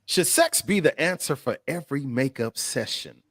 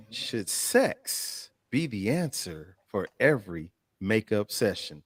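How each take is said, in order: First: Said in the usual way. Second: Lower, softer, measured question; weighty, spaced-out delivery of the question; slow, deliberate repeat. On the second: Real, not acted. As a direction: pose it slowly, phrase by phrase. Repeats question slowly for effect.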